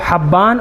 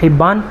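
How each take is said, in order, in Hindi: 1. पहला स्वर खुला 'a' की आवाज़ है। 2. पहला स्वर छोटी 'i' की आवाज़ है। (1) "बड़े हा के ऊपर ज़बर के साथ" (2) "बड़े हा के नीचे ज़ेर के साथ"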